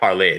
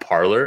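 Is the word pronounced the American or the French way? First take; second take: French; American. First: It ends in a French 'lay' sound. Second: It ends in an English 'lor' sound. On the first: The speaker calls it right. "Clearly, it's French, right? Like parler, to speak" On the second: The speaker calls it wrong. "you guys, Americans specifically, pronounce that app Parlor"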